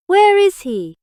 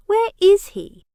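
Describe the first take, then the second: First: Higher and louder, each word hammered; furious repeat. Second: Higher and louder, a sharp demand; angry demand. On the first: Jack repeats his question to the wounded Biggs, enraged. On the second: Jack demands the uncle's whereabouts from Biggs, loud and angry. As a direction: bark the question at him. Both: A narrator's reading.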